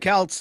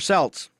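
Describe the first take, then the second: First: It starts differently from the word 'Celtics'. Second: It starts the same way as 'Celtics'. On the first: The speaker calls it wrong. "those aren't uh, Celts" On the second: The speaker calls it right. "they're Celts. Like the Celtics?"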